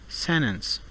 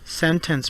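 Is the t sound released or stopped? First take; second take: stopped; released. First: The t is stopped, followed by a strong n. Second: The t is fully released before the n.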